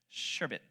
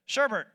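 First: The second syllable has no R sound. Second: The second syllable has an R sound. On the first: The speaker calls it right. "The way you say it is sherbet" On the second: The speaker calls it wrong. "It's not sherbert. There's no R at the end of it"

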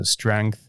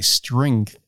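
First: The vowel sounds like the vowel in wrench. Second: The vowel sounds like the vowel in ink. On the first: The speaker calls it wrong. "I say it the way I would say wrench" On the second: The speaker calls it right. "I put an I in place of the E and I say strength"

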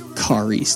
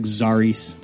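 First: The name begins with a K sound. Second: The name begins with a Z sound. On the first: The speaker calls it right. "it's Karis. That's how you pronounce it" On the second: The speaker calls it wrong. "I know it looks like Zaris"

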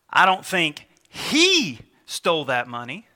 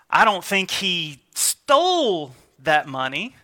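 First: The stress falls on the word 'he'. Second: The stress falls on the word 'stole'. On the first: Someone else took the money. "because of the inflection on the he" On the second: He took the money but did not mean to steal it. "he may have it, but maybe it was laying out on the counter and he grabbed it to keep it set aside"

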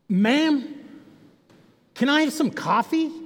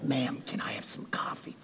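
First: It is said in a louder, more noticeable way. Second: It is said quietly, trying not to draw attention.

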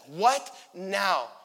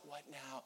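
First: It sounds irritated and annoyed. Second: It sounds calm and plain.

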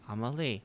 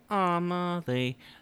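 First: The name is said plainly in an ordinary way. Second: The name is drawn out in a song-like way. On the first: The speaker calls it right. "how it's supposed to be pronounced, which is just Amelie" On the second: The speaker calls it wrong. "like the cranberries pronounce zombie"

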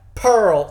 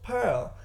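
First: It is said in a country Southern accent. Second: It is said in a posh British accent. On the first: "turning to this country-ass Pearl accent" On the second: "this posh British accent"

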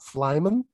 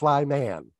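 First: The ending 'man' is reduced to a weak vowel. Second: The ending 'man' is said fully and clearly. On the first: It sounds like a family surname. The speaker calls it wrong. "it's actually not Flyman" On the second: It names a man who is also a fly. The speaker calls it right. "like a man who is also a fly"

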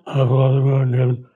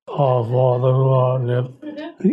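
First: It is said in a normal voice. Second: It is said in a put-on pious voice.

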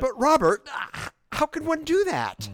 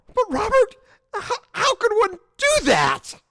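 First: It is said with toned-down emotion. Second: It is said with a lot of emotion.

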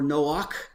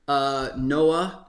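First: The name is pronounced the Hebrew way. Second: The name is pronounced the usual English way. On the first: "We do try to point out the Hebrew pronunciations" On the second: "we use both interchangeably"

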